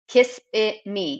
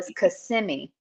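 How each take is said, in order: First: The name is said the way visitors say it. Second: The name is said the way locals say it. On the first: An out-of-towner is saying it. The speaker calls it wrong. "they always call it Kissimmee" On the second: A local is saying it. The speaker calls it right. "no, it's Kissimmee"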